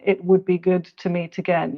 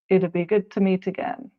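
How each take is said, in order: First: It would is said as two full words. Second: It would is shortened to one syllable. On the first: The speaker calls it wrong. "In spoken English, you wouldn't hear" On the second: The speaker calls it right. "You'd hear it'd"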